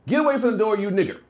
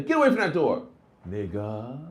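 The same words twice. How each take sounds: First: Harsh racist. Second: Light friendly tease; casual joking. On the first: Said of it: "here's an example". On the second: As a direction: say it like a buddy joke. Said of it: "But if you say". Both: Shown as a demonstration.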